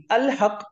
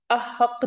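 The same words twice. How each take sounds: First: "अल हक" with the l clearly sounded; lām pronounced. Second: "अहक" with the l dropped, marked as wrong; wrong form demo. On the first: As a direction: read "अल हक", keeping the lām. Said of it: "मैं लाम को पढ़ूंगी". ("अल हक" में लाम पढ़ा हुआ) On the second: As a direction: show "अहक" as what not to read. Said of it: "नहीं पढ़ूंगी". ("अहक" बिना लाम के, ग़लत रूप) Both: Shown as a demonstration.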